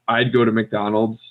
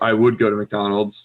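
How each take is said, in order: First: 'Would' is contracted to a short 'd' sound. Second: 'Would' is said in full as a separate word. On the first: "you could say I'd go to McDonald's, perfect" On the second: "or I would go to McDonald's, also good"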